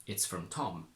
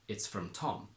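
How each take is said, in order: First: The stress falls on the word Tom. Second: The same.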